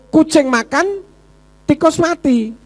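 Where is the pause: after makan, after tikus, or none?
after makan. There is a pause after the word makan. The cat is eating while the rat is dead. "Kucingnya enak-enak makan, tikusnya mati"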